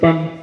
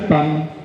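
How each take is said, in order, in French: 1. Les temps se suivent rapidement, les uns après les autres. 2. Les temps sont espacés lentement et régulièrement. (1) "ce qu'on doit sentir au niveau du sol, c'est" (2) "plutôt de faire pam, pam, pam"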